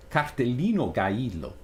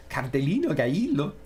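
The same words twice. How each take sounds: First: Said in the usual way. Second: Quick, swooping mock Mexican accent. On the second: Streamer giving in to the irresistible Mexican accent. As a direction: relish the put-on Mexican accent. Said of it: "it's irresistible".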